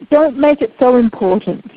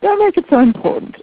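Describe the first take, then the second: First: "don't make it so important" said firmly, stress on "don't"; firm advice. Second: "Don't make it so important" repeated much higher, stress on "make"; emphatic repeat. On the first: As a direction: lay down the rule plainly, leaning on "don't". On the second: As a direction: drive the point home with a lifted, emphatic repeat. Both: Shown as a demonstration. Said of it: "which is ma".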